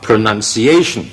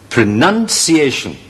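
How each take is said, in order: First: The word carries only one stress. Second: The word carries a secondary and a main stress. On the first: The speaker calls it wrong. "因為你讀嚟讀去咧得一個stress 啊嘛" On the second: The speaker calls it right. "呢個咧就係正確嘅讀音啦"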